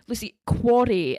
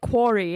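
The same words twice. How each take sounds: First: Quarry said slowly and deliberately, the way Peter says it; correcting pronunciation. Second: Quarry said the Canadian way, as in the game. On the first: Husband corrects wife, slowly, quarry. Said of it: "And he's like". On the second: Wife repeats quarry Canadian-style to her husband. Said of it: "You said it like a Canadian". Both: Retold or imitated.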